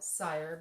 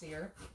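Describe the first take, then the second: First: The name rhymes with 'fire'. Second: The name rhymes with 'fear'. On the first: This is how most people read the spelling. The speaker calls it wrong. "most people want to call it Sire because of the Y" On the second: This is how the name is really said. The speaker calls it right. "How the Y is kind of silent"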